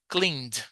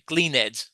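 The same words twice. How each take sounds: First: The ending joins the word with no extra syllable. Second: The ending is said as an extra syllable. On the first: The speaker calls it right. "No, cleaned" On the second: The speaker calls it wrong. "how often do I say do I hear Brazilians, yeah, saying cleaned?"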